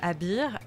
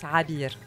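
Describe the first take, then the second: First: The name begins directly with a vowel. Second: The name begins with a throaty consonant. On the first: This is how it is said in French. "en français, on dit plutôt Abir" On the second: This is how it is said in Arabic. "en arabe, ça se prononce Rabir"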